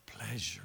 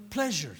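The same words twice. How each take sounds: First: Breathy tempting whisper. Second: Said in the usual way. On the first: Shown as a demonstration. Preacher voicing the tempter, a seductive whisper. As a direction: hiss it like a seducer.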